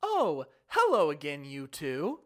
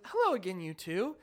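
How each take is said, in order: First: Slow, overly sweet cult-like greeting; creepily friendly guard. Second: Creepily friendly guard. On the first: Imitating smiling guard greeting sisters, creepily friendly. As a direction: swoop slowly through it with a big smile. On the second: Repeating smiling guard's greeting, creepily friendly. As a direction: lilt it brightly, a bit too friendly. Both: Retold or imitated. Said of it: "With that exact voice and this big smile".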